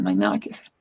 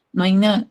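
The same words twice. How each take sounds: First: Much lower, a solemn medical sentence; grave doctor's verdict. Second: Said in the usual way. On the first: Retold or imitated. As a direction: drop the voice low like a doctor giving bad news. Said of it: "Y ellos decían". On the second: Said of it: "clínicamente y ex".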